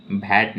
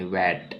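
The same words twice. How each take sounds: First: "भैट" with an initial bh sound; wrong take: "भैट" opening on bh; mispronounced VAT. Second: "वैट" with a soft initial v/w sound; softly said "वैट" with a v onset; correct VAT pronunciation. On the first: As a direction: say "भैट", starting with breathy bh instead of v. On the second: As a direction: say "वैट", opening on v rather than bh. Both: Shown as a demonstration. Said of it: "भैट नहीं".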